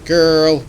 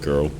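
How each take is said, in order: First: It is drawn out in a camp, playful style. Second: It is said flatly in a belittling tone. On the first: It is affectionate banter. The speaker calls it right. "more drag queen style of G U" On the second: It is a put-down. The speaker calls it wrong. "rather than being derogatory"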